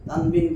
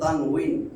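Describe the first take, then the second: First: The second syllable begins with a b sound. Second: The second syllable begins with a w sound. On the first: The speaker calls it wrong. "আমরা অনেকে উচ্চারণ করি তানবিন" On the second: The speaker calls it right. "আসলে উচ্চারণ তানউইন"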